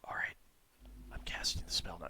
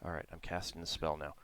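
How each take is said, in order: First: It is whispered without voice. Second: It is spoken aloud but quietly. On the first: This is not allowed for casting a spell. The speaker calls it wrong. "you can't whisper it. So, like, you can't do" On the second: This is allowed for casting a spell. The speaker calls it right. "you can speak it quietly"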